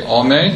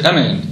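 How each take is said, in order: First: The first vowel is a full 'ah' sound. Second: The first vowel is a short 'eh' sound. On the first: The speaker calls it right. "You should say amen" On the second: The speaker calls it wrong. "You shouldn't say amen"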